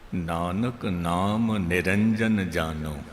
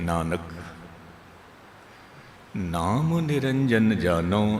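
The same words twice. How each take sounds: First: The first two words run together without a pause. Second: There is a pause right after the first word. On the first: The name of Nanak leads to the pure one. The speaker calls it wrong. "जे बारी तल ते आप जी सुनोगे" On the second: Nanak has known the name of the pure one. The speaker calls it right. "Nanak ने विश्राम इत्थे ही देना है"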